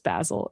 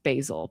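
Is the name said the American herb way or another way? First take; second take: other; American. First: It is said unlike the American herb. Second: It is said like the American herb. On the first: "I should be thinking of it as basil" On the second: "the herb in the U S is pronounced basil"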